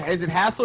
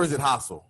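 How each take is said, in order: First: Hassel said like "hassle"; pronunciation option. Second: Hassel said as "HAH-sel"; alternative pronunciation. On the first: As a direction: say Hassel with the short a of "hat". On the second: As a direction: say Hassel with a broad ah. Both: Shown as a demonstration. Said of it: "do you pronounce, is it".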